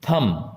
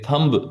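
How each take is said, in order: First: The b sound is silent. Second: The b sound is pronounced. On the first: The speaker calls it right. "बी इसमें silent है" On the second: The speaker calls it wrong. "इसे थंब नहीं बोलेंगे"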